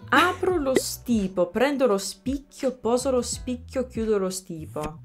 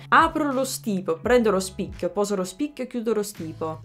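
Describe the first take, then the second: First: It is said at a slower, ordinary pace. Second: It is said at a quicker pace.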